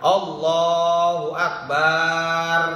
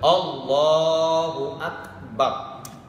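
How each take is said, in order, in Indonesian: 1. Vokal setelah b dalam akbar dipanjangkan. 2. Vokal setelah b dalam akbar pendek.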